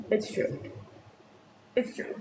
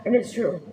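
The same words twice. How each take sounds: First: Much softer It's true; quiet repeat. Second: Said in the usual way. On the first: Shown as a demonstration. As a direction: drop the voice on the repeat.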